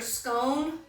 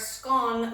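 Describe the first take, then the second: First: The vowel rhymes with the vowel in tone. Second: The vowel rhymes with the vowel in gone. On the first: "scone like tone" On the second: "scone like gone"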